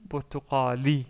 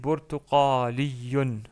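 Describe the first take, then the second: First: The word ends without any n sound. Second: The word ends with an added n sound. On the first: "si on s'arrête sur le mot" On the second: "il y a un doublement de, de un tanwin à la fin"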